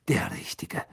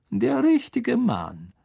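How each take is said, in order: First: Hissed sarcasm; sneering whisper. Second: Much higher, louder and slow, "richtige" drawn out; mock praise. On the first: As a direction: breathe it out with contempt. Snape's sneering repeat. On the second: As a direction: savour the sarcasm of "richtige". Snape's mocking emphasis. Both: A narrator's reading.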